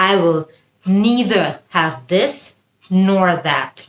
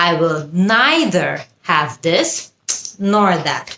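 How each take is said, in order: First: "neither" as NEE-ther, drawn out; slow model sentence with EE in "neither"; American pronunciation. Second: "neither" as NYE-ther, drawn out; slow model sentence with EYE in "neither"; British pronunciation. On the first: Teacher models an example for learners, "neither" as NEE-ther. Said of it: "American উচ্চারণ". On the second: Teacher repeats the example British-style, "neither" as NYE-ther. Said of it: "British উচ্চারণ". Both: Shown as a demonstration.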